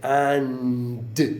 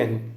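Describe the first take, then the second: First: The word ends with a clear d sound. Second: The word ends without any d sound. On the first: "they don't say and" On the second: "they say an"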